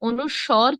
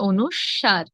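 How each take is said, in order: First: The last syllable sounds like 'swor'. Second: The last syllable sounds like 'swar'. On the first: The speaker calls it wrong. "অনুস্বর কিংবা অনুস্কর নয়" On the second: The speaker calls it right. "কি হবে? অনুস্বার"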